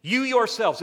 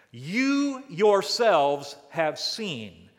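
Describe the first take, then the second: First: "You yourselves" punched high and loud; emphatic, higher. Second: "You yourselves have seen" drawn out slowly and loud; emphatic. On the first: Preacher driving the emphasis home to the congregation, high and loud. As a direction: hit "You" hard and high. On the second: Preacher stressing God's words to the congregation, slow and emphatic. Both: Shown as a demonstration. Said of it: "It's emphatic in the Hebrew".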